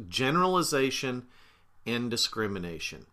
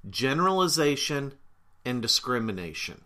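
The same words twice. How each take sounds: The two takes are said the same way.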